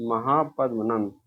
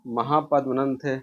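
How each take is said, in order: First: Mahapadmananda spoken slowly, syllable by syllable; slow the name down so students catch it; teacher repeating the answer slowly; slow emphatic repeat. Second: Said in the usual way. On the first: Shown as a demonstration.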